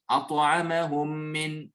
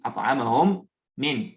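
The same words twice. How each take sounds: First: The two m sounds merge into one doubled m. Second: The two m sounds are pronounced separately. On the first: The speaker calls it right. "je combine les deux dans un seul mime et je le considère comme un mime mushaddada" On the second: The speaker calls it wrong. "deux fois mime. Non, ... ça, c'est pas idgham"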